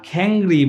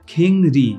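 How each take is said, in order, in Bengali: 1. প্রথম স্বরধ্বনিটি 'ae'-এর মতো শোনায়। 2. প্রথম স্বরধ্বনিটি 'e'-এর মতো শোনায়।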